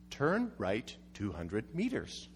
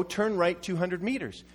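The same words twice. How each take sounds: First: Low, slow, soft robotic navigation voice; flat-toned mock GPS announcement. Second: Said in the usual way. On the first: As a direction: read it out like a sat-nav. Reading out the GPS instruction.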